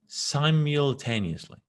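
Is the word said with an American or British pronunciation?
American. The word is said with an American pronunciation. "Americans say simultaneously"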